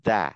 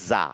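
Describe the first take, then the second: First: The syllable starts with a d-like sound. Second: The syllable starts with a j-like sound. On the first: The speaker calls it right. "জিভটা ওই দাঁতের মাথায় রাখেন, ধরে রেখে দা" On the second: The speaker calls it wrong. "Not যা"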